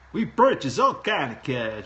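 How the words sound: It is said in a put-on foreign accent.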